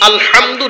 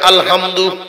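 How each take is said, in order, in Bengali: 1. h ধ্বনিটি গভীর, গলা থেকে আসা ধ্বনি। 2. h ধ্বনিটি হালকা, সাধারণ ধ্বনি। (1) "আলহামদু না বলিয়া" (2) "যদি বলে আলহামদু"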